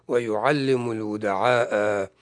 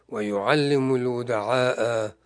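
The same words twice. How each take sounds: No difference in how they are said.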